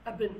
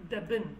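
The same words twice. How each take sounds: First: Abin without the initial d; accent pronunciation. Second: Dabin with an initial d; standard pronunciation. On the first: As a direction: drop the d, leaving abin. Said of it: "he preferred the accent". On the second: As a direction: sound the d starting dabin. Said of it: "it was supposed to be dabin". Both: Shown as a demonstration.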